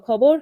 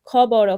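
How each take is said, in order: First: খবর joined as one word; word blended aloud. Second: খ, ব, র each on its own; letters broken apart. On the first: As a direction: read খবর whole, for learners to repeat. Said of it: "শব্দগুলো সুন্দরভাবে জোরে জোরে". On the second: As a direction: spell out খ, ব, র letter by letter. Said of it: "বর্ণগুলো ভেঙে ভেঙে পড়বে". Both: Shown as a demonstration.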